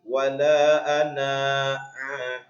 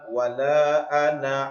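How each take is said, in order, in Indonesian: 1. Vokal akhir dari ana dibaca panjang. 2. Vokal akhir dari ana tetap pendek.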